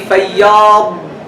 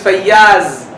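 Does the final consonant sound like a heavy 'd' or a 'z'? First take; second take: heavy d; z. First: The final consonant is a heavy emphatic d. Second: The final consonant is a plain z sound. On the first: This is the original form of the word. The speaker calls it right. "it is originally فياض with ضاد" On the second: This is a later, changed form of the word. The speaker calls it wrong. "with more change in the word it becomes فياز"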